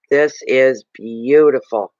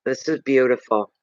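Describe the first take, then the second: First: Slow, savoured "beautiful"; each word stretched out, "beautiful" drawn long and strong; emphatic admiration. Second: Said in the usual way. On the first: Real, not acted. Repeats it slowly with emphasis.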